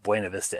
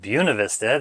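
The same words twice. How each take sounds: First: Buena is said in a Spanish-like way. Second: Buena is said in a local English way. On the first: This is how the spelling suggests it should be said. "It should be pronounced Buena Vista anyway" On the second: This is how locals actually say it. "but they pronounce it Buena Vista"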